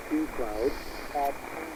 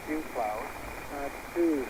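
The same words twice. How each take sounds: The two takes are said the same way.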